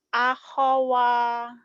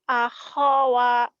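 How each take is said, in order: The two takes are said the same way.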